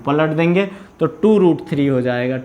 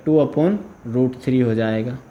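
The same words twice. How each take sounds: First: Said in the usual way. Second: Slow, with "upon" lifted and clearly marked as the correction; slow it down and lean on "upon"; stress on upon. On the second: Shown as a demonstration. ("upon" पर ज़ोर देकर धीरे से सुधारना)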